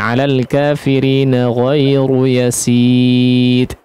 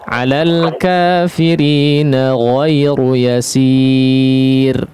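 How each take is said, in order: First: The final r loses its vibration completely. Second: The final r is thin but still vibrates. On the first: The speaker calls it wrong. "Getarannya tidak hilang, tidak kemudian misalnya" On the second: The speaker calls it right. "Sama ketika ditipiskan juga"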